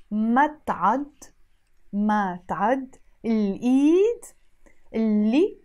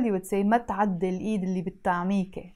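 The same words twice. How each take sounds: First: Careful, slower Arabic phrase. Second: Said in the usual way. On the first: Shown as a demonstration. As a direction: spell it out slowly, word by word. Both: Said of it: "Now let me say it slower".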